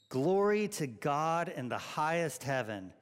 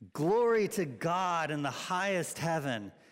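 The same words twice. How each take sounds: First: It is said in a calm, even voice. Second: It is said with lively, excited energy. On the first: "Let's say that together" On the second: "with a little bit of excitement, like this is really important"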